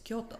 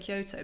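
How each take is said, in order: First: It is said with a Japanese pronunciation. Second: It is said with an English pronunciation. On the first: "when I lived there, it's Kyoto" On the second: "I still feel weird saying Kyoto"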